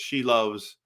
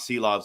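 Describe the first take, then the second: First: The name begins with an sh sound. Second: The name begins with an s sound. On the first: The speaker calls it right. "It's She Loves, is how you say it" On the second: The speaker calls it wrong. "it's not Sea Loves"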